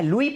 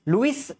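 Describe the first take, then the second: First: The name ends without any s sound. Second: The name ends with an audible s sound. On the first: The speaker calls it right. "एस silent होता है" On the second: The speaker calls it wrong. "लुइस नहीं बोलना है"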